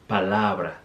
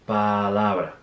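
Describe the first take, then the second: Both takes have the same delivery.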